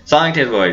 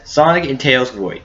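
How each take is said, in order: First: The line is spoken at a fast pace. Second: The line is spoken at a slow pace. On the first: "I say it like this. ... I say it fast" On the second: "I can say it in a slow version for you guys"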